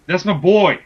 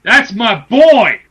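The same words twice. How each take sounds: First: Firm, raised-volume backing; firm declaration. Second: Slow, loud, high proclamation; emphatic shout. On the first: Backing his favourite wrestler to cohost, firm and loud. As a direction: state it firmly, loudly. First take of repeated declaration. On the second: Proclaiming loyalty to his favourite wrestler, emphatic shout. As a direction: belt it out, stretching each word. Repeats declaration far more forcefully. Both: Real, not acted.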